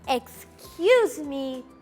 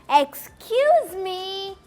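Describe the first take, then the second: First: It is said quietly and politely. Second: It is said a little louder.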